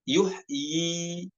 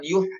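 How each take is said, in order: First: The word ends with a vowel held two beats. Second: The word ends abruptly on a consonant. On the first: The speaker calls it right. "dibaca tetap yuhyi" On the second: The speaker calls it wrong. "bukan dibaca sukun, bukan yuh"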